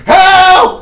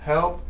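First: It is shouted loudly. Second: It is said quietly, like a question.

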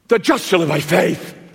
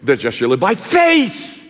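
First: The stress is on "just". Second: The stress is on "faith".

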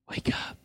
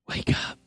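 First: It is whispered softly. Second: It is whispered softly.

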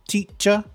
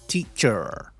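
First: The final R is silent, British style. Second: The final R is pronounced, American style. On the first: "the letter R is only pronounced when followed by a vowel" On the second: "My American accent is terrible"

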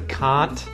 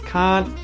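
First: The final T is clearly pronounced. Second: The final T is muted and silent. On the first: "So can't becomes can't" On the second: "So can't becomes can't"

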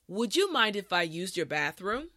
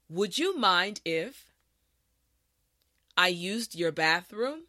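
First: The sentence is said at a normal pace. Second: The sentence is said slowly and carefully. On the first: "the last time at a regular pace" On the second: "this time repeat after me"

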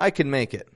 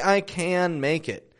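First: The word 'can' is said quickly and reduced, linked to its neighbours. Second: The word 'can' is said slowly and fully, with a clear vowel. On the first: The speaker sounds natural and neutral. The speaker calls it right. "we reduce it to a super quick kind of can sound" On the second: The speaker sounds irritated or impatient. The speaker calls it wrong. "they feel like you may be irritated"

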